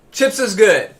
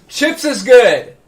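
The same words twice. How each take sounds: First: Said in the usual way. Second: Stretched slow and high; drawn-out catchphrase. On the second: Acted. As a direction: draw every word out slowly.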